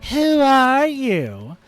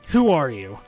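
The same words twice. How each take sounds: First: It is said in an obnoxious, mocking voice. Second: It is said in a plain, normal voice.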